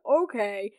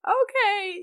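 First: Said in the usual way. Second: Much higher, louder gushing okay; excited squeal. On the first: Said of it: "okay, okay, yes, Poppy". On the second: Real, not acted. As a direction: squeal it like a thrilled fan. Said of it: "yes, Poppy, yes, Queen".

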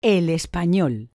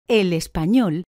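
The two takes are said the same way.

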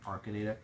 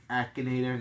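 First: Arkanator with an r after the first a; wrong pronunciation. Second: Akinator said with a short a, no r; correct pronunciation. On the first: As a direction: say Arkanator with the r sound. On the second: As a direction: say Akinator cleanly without an r. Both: Shown as a demonstration. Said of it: "I completely said Arkanator".

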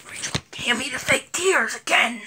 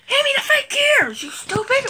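First: Hushed off-camera hiss; whispered order. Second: High, strained scolding; impatient squeal. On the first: Vlogger secretly asking the helper for fake tears, whispering. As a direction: whisper it so the viewers won't hear. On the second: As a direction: snap it at a much higher pitch. Impatient repeat to helper Rachel. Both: Real, not acted.

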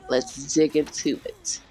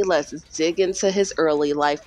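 First: Creepy true-crime whisper. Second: Said in the usual way. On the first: Acted. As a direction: lean in and whisper it. Spooky teaser whisper in true crime.

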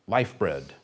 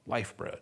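First: Said in the usual way. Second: "Life bread" dropped soft and hushed; a hushed echo for reflection; softly repeated. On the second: Shown as a demonstration. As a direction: let it sink in quietly. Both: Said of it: "Think about that for a moment".

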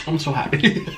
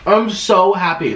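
First: Said in the usual way. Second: Happy. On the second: Real, not acted. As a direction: say it with glee.

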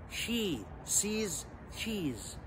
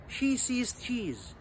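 First: Soft, slow, each word on its own; slow pronunciation. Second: One quick connected take; quick pronunciation. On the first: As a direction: separate the words with clear pauses. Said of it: "ده النطق اللي هو slow". (نطق بطيء) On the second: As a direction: run the words together, higher pitch. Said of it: "تعالى كده نجري النطق مع بعض". (نطق سريع) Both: Shown as a demonstration.

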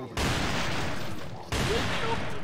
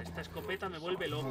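First: High, very slow airy "Me vuelve loco"; drawn-out delight. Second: Said in the usual way. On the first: Real, not acted. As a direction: stretch "loco" up in a breathy swoon. Repeats praise, drawn out.

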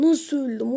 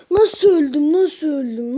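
First: Said in the usual way. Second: Loud disbelief. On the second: Real, not acted. Disbelief at dying in game.

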